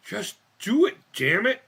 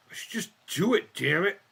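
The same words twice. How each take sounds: First: Forceful. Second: Said in the usual way. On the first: Shown as a demonstration. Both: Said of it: "repeated with more force".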